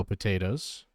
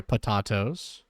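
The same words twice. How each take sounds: First: Said in the usual way. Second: "Potatoes" said as puh-TAH-toes; mock-corrected pronunciation. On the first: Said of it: "Or, sorry, Potatoes". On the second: Shown as a demonstration. Reactor jokingly corrects a commenter's name, "Potatoes" as puh-TAH-toes. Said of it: "Or, sorry".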